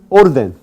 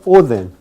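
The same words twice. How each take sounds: First: The d is a full stop sound. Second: The d is a soft fricative sound.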